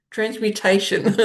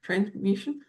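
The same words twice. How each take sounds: First: "Transmutation." said fully and firmly as tranz-myoo-TAY-shun; firm corrected "Transmutation." with every syllable; confident correction. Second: "transmutation?" mumbled as a quiet questioning guess; quiet unsure "transmutation?" rising like a question; unsure try. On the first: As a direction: land "Transmutation." clearly, with a laugh of relief. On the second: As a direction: test out "transmutation?" softly, asking. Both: Real, not acted.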